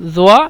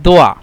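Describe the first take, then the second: First: The word begins with a z sound. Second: The word begins with a d sound. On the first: This is the standard Arabic form. "আরবি শুদ্ধ ভাষায় জোয়া" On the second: This is the Egyptian form. "মিশরের আরবি ভাষায় জোয়াটাকে তারা সবসময় দোয়া ব্যবহার করে থাকেন"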